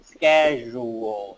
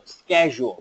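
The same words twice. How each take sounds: First: Schedule said slowly, syllables pulled apart; split into syllables. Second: Said in the usual way. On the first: Shown as a demonstration. Teacher splitting schedule into syllables, slow. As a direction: break schedule into pieces, slowly. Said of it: "mình sẽ tách ra, ví dụ như này". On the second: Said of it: "mình sẽ tách ra".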